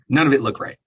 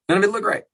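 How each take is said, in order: First: Said in the usual way. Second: "None of it looked right" said higher and pushed; incredulous restatement; higher emphatic repeat. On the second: Real, not acted. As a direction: repeat it with disbelief.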